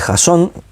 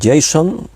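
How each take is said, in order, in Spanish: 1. El nombre se dice con pronunciación española. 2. El nombre se dice con pronunciación del inglés americano.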